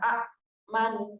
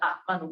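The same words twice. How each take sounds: First: The opening vowel is drawn out long. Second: The opening vowel is cut by a glottal stop. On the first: The speaker calls it right. "sudah dibadalkan, sudah digantikan" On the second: The speaker calls it wrong. "Kenapa enggak amanu?"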